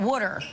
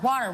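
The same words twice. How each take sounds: First: It is said like 'wooder', South Jersey style. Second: It is said with a general American vowel. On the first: "we call it water... W O O D E R" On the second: "we don't call water water"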